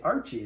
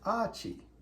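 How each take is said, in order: First: The name is said without an Australian accent. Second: The name is said in an Australian accent. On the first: "you don't say Archie if you're from Australia" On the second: "You say, oh, that's Archie"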